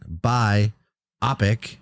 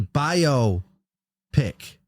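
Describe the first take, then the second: First: It is split as bi plus opic. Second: It is split as bio plus pick. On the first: The speaker calls it wrong. "not bi opic" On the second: The speaker calls it right. "it's a bio pick"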